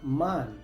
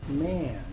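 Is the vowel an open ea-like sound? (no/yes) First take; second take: no; yes. First: The vowel is not the open ea-like sound. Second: The vowel is an open ea-like sound. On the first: The speaker calls it wrong. "Muchos pronuncian esta palabra" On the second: The speaker calls it right. "la A se pronuncia ea"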